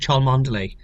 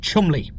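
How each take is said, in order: First: Cholmondeley sounded out as written; Cholmondeley read naively in full, not as Chumley; mistaken spelling pronunciation. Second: Cholmondeley squeezed into two syllables, Chumley; Chumley, the shortened surname; correct short pronunciation. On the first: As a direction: give Cholmondeley all its written syllables. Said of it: "to look at it first, you think". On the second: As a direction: say Chumley, rhyming with comely. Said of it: "it's pronounced". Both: Shown as a demonstration.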